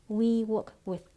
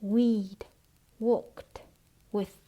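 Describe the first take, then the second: First: "we work with" run together, endings clipped off; "we work with" as one smooth chunk; cut final sounds. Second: "we'd", "worked", "with" separately, each ending sounded; "we'd worked with" word by word, with gaps; words not reduced. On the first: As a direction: join "we work with" in one phrase without released endings. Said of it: "Xảy ra cắt âm". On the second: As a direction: chop "we'd worked with" into three isolated words. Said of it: "không phải là". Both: Shown as a demonstration.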